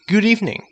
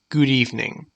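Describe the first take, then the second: First: It is said in a happy, cheerful tone. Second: It is said in a composed, professional tone. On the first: It suits a friendly greeting. "This tone shows happiness" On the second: It suits a corporate setting. "This tone shows professionalism"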